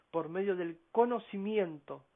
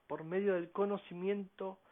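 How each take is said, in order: Both takes have the same delivery.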